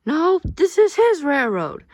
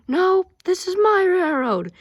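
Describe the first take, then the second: First: Much higher, louder, slow insistence on "his"; hammed-up squabble over "his" railroad; mock quarrel. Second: Much higher, louder, slow claim with "my" punched; hammed-up squabble stressing "my"; mock quarrel. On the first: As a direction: argue like a stubborn kid. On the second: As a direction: insist the railroad is yours. Mock quarrel over railroad.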